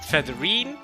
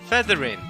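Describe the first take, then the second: First: The name ends with a different final sound. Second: The name ends with a short 'in' sound. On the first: The speaker calls it wrong. "not Featherine, like how I thought it was" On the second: The speaker calls it right. "her name is actually Featherin"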